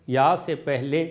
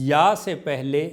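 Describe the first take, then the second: Both takes have the same delivery.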